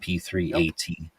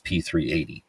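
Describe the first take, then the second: First: It is said clearly, with separate letters 'A T'. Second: It is said fast, the letters blending into 'eighty'. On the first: "but it's" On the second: "if you say it really fast"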